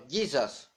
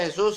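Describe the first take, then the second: First: "Jesus" as JEE-sas, stress first; correct English pronunciation. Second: "Jesús" as heh-SOOS, final stress; wrong Spanish pronunciation. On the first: Preacher correcting Latinos, "Jesus" as English JEE-sas. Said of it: "no se pronuncia Jesús, sino". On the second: Preacher correcting Latinos, rejected "Jesús" as heh-SOOS. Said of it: "eso no se pronuncia Jesús". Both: Shown as a demonstration.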